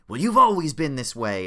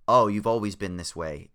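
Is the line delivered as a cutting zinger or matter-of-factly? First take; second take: zinger; matter-of-fact. First: It is said as a cutting, dramatic zinger. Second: It is said flatly, grumpy and matter-of-fact.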